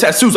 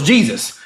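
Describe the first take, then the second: First: "Jesus" said hay-SOOS, J as H; Spanish pronunciation. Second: "Jesus" said JEE-zus, with a J sound; English pronunciation. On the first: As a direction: stress the last syllable of "Jesus", Spanish style. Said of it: "J is H". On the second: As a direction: say "Jesus" the English way, stressed on the start. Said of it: "I thought it was Jesus". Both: Shown as a demonstration.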